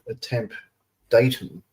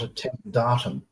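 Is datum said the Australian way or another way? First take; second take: other; Australian. First: Datum is said the non-Australian way. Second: Datum is said the Australian way. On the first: The speaker calls it right. "it's called a, a temp datum" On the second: The speaker calls it wrong. "not a temp datum"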